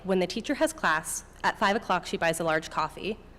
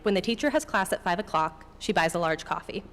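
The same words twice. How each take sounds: First: There is a pause right after "class". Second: There is a pause right after "o'clock".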